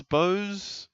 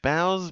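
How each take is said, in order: First: Bowes said as BOHZ, rhyming with nose; Bowes rhymed with nose. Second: Bowes said as BOWZ, rhyming with cows; Bowes rhymed with cows. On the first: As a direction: try Bowes with the long o of go. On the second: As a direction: try Bowes with the ow of how. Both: Shown as a demonstration. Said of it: "How do you say it?".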